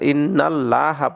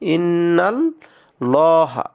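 First: The l sound is light and thin. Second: The l sound is heavy and thick. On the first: The speaker calls it wrong. "ইন্নাল লাহা পড়া যাবে না" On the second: The speaker calls it right. "এই লামটাকে আমরা মোটা করে পড়বো"

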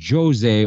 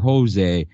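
First: The name is pronounced the Portuguese way. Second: The name is pronounced the Spanish way. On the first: The name comes from Brazil. The speaker calls it right. "the correct pronunciation is Jose" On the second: The name is treated as Spanish. The speaker calls it wrong. "over Jose"

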